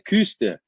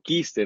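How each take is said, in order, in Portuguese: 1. A primeira vogal é i com os lábios arredondados. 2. A primeira vogal é um i simples, não arredondado. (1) "a pronúncia com a trema em cima do U seria Küster" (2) "no máximo, Kister"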